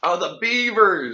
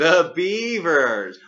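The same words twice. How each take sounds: First: Excited. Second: Slow, drawn out, hammed-up cheer; exaggerated cheer. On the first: Real, not acted. Excited recognition. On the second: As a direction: stretch it out like a chant. Echoing with exaggerated enthusiasm.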